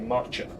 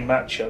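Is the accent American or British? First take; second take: American; British. First: American accent with an elongated A vowel. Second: British accent with a shorter A vowel. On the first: "they say matcha" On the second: "As we say matcha"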